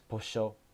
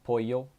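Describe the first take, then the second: First: The double L sounds like a sh sound. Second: The double L sounds like a y sound.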